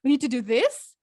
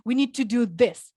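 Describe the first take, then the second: First: "We need to do this" with the pitch rising on "this" like a question; "We need to do this" with a questioning rise at the end; rising inflection. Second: "We need to do this" with the pitch falling firmly on "this"; "We need to do this" as a firm statement, tune falling at the end; falling inflection. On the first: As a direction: end "We need to do this" on an upward tune as if asking for approval. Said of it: "a little bit of question at the end". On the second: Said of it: "use falling inflection". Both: Shown as a demonstration.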